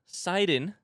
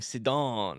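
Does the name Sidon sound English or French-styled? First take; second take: English; French. First: The name gets a plain English-sounding pronunciation. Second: The name gets a French-sounding, stylish pronunciation. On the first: The speaker calls it right. "The comments have told me that that's how you pronounce it" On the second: The speaker calls it wrong. "sorry for making your ears hurt by saying Sidon. I wanted it to be like sort of French and sexy"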